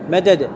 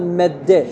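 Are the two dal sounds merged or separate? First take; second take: separate; merged. First: Two separate dal sounds with a vowel between. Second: Both dal sounds merge into one doubled dal. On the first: This is the word's underlying original form. "أصلها مدد" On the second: This is the form actually used in speech. "فماذا أقول؟"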